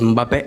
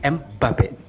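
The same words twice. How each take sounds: First: The name is said with an African pronunciation. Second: The name is said with a French pronunciation. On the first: "les Africains disent Mbappé" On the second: "le Français il dit Mbappé"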